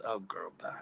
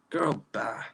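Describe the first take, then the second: First: Breathy whispered brush-off; whispered dismissal. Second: Said in the usual way. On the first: Real, not acted. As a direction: whisper it, waving her off. Dismissing a ridiculous chat comment.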